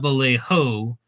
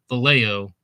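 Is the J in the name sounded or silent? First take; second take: sounded; silent. First: The J in the name is sounded. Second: The J in the name is silent. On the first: The speaker calls it wrong. "not Vallejo" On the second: The speaker calls it right. "You don't pronounce the J"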